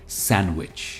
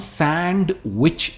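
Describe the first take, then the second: First: The 'd' sound is left out entirely. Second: The 'd' sound is pronounced in the middle. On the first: The speaker calls it right. "हम डी इसमें pronounce करते ही नहीं। यह है सैंडविच" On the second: The speaker calls it wrong. "हम सैंडविच नहीं कहते"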